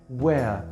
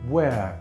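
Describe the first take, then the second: Both takes have the same delivery.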